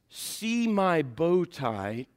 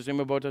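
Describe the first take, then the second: First: The phrase is said at a normal, clear pace. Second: The phrase is said very fast and slurred.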